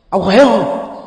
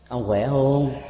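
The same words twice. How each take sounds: First: It is asked in a harsh, scolding tone. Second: It is asked with weight and warm concern. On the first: It sounds like a rebuke. "như là một lời nạt nộ thôi" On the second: It shows somewhat deeper concern. "nó có một cái sức trọng lực, cái sự quan tâm cao hơn chút xíu"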